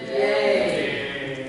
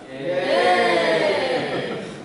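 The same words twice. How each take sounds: First: The cheer is said quietly. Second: The cheer is said loudly.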